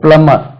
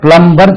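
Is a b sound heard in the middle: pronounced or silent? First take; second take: silent; pronounced. First: The m runs straight into the ending, no b. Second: A b sound is pronounced after the m. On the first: The speaker calls it right. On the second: The speaker calls it wrong. "பிளம்பர் சொல்லக்கூடாது"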